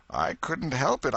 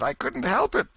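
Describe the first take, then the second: First: High, mournful moan on help; moaning plea. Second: Help cried very high and louder; anguished higher moan. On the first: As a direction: moan it in misery. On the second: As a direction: let the moan break upward. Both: Acted. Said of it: "Potter moaned".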